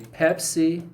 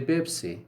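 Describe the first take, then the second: First: The word begins with a p sound. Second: The word begins with a b sound. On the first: "When they want to say Pepsi" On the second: "they say Bipsy"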